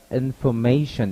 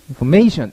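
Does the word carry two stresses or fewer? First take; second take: two; fewer. First: The word is read with two stressed syllables. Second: The word is read without two stressed syllables. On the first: The speaker calls it right. "information 이렇게 읽는다는 얘기예요. 강세가 두 개 들어갔다는 얘기는" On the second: The speaker calls it wrong. "이렇게만 읽는 게 아니라"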